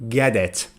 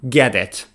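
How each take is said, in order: The two takes are said the same way.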